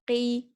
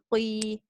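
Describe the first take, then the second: First: The vowel is said without any w-like glide. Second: The vowel is said with a w-like glide. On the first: The speaker calls it right. "with a fatha or a kasra, you must not uh, move your lips" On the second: The speaker calls it wrong. "the sound is gonna end off with a w sound"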